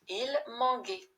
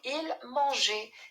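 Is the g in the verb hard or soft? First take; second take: hard; soft. First: The g is hard, like the g in go. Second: The g is soft, like the s in measure. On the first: The speaker calls it wrong. "sinon on va le prononcer il manguait" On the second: The speaker calls it right. "Donc il mangeait"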